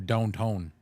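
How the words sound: Said in a Montana accent, almost Scottish-sounding. "they go downtown. ... almost like Scottish"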